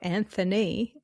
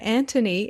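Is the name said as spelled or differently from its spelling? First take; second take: as spelled; differently. First: The name is said just as it is spelled. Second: The name is said differently from its spelling. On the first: This follows the written form of the name. "even though it's spelled Anthony" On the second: This is how the owner of the name says it. "he pronounces it Anthony"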